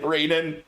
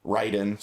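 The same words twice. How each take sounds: First: Raiden said RAY-den, with the first syllable like ray; mispronounced Raiden. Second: Raiden said RYE-den, with the first syllable like rye; corrected Raiden. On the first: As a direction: Raiden with ay as in day, not eye. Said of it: "Raiden, sorry". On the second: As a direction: Raiden with eye as in I. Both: Shown as a demonstration.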